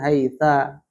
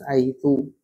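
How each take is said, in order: First: The word ends with an a vowel. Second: The word ends with a u vowel. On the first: The speaker calls it wrong. "ataupun haitsa" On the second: The speaker calls it right. "harus haitsu"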